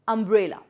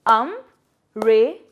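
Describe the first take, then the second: First: Said in the usual way. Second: "Um-re-la" in three slow beats with long pauses; syllable by syllable. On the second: Shown as a demonstration. Teacher breaking a word into three parts, "Um-re-la" syllable by syllable. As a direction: break "Um-re-la" apart, each piece standing alone. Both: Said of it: "break it into three parts".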